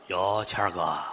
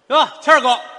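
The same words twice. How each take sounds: First: The greeting is said in a low voice. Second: The greeting is said in a high voice. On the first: The roles of greeter and answerer are reversed. The speaker calls it wrong. "这反过来不成吗？那就不像话了。" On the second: The speaker is the one starting the greeting. The speaker calls it right. "我的声音要高"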